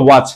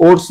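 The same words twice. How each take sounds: First: ওয়াচ said with an opening "wa" sound; carefully corrected ওয়াচ, starting on "wa"; correct pronunciation. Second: ওটস said with a "ts" ending, as misread; mispronounced ওটস, ending in "ts"; wrong pronunciation. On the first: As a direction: say ওয়াচ with "wa", not "o". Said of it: "এটা উচ্চারণ হলো ওয়াচ". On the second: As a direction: say ওটস as "ots", the mistaken reading of worse. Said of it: "ওটস না, এটা উচ্চারণ হলো ওয়াচ". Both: Shown as a demonstration.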